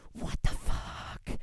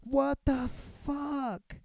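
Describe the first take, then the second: First: Whispered disbelief. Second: Slow, higher, stunned exclamation; outraged disbelief. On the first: Outraged at twenty-five dollar fine. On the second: Reacting to a twenty-five dollar fine, slow stunned outrage. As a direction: drag it out in shock. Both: Retold or imitated.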